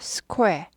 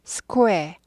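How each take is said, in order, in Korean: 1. k 뒤에 짧고 빠른 'oo' 소리가 와요. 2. k 뒤에 짧고 빠른 'oo' 소리가 와요.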